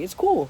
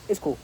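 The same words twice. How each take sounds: First: It is said in a warm, kind tone. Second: It is said in a dismissive, offhand tone. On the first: The speaker genuinely understands. The speaker calls it right. "You gotta be like" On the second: The speaker doesn't really care. The speaker calls it wrong. "Because then it's like, yeah, whatever"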